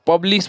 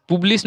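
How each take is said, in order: First: पब्लिश with first syllable "pub", like "pub-lees"; U as short A. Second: पब्लिश mispronounced as "pooblis", U as oo; wrong U sound. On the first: Teacher correcting learners, पब्लिश with an uh sound. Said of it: "पब्लिश बोलेंगे". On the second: Teacher showing what not to say, पब्लिश as "pooblis". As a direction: say पब्लिश with "pu" in the first syllable. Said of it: "पब्लिश नहीं बोलेंगे इसको". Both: Shown as a demonstration.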